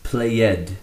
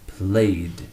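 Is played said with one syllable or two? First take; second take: two; one. First: It is said with two syllables. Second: It is said with one syllable. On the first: The speaker calls it wrong. "Play is not pronounced played" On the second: The speaker calls it right. "a single D sound"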